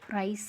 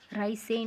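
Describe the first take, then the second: First: The word ends on the 's' sound. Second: An extra syllable is sounded at the end. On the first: The speaker calls it right. "राइस पढ़ेंगे" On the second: The speaker calls it wrong. "राइस से नहीं पढ़ेंगे"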